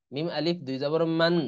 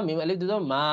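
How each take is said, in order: First: "মান" closed on a held n; nasal n ending. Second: "মা" with long open vowel, no n; stopping pronunciation. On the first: Teacher spelling the first reading, n sounded in "মান". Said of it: "অথবা". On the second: Teacher stopping here, so "মা" ends open and long. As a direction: drop the n and draw out "মা". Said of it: "যেহেতু থামবো আমরা এখানে". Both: Shown as a demonstration.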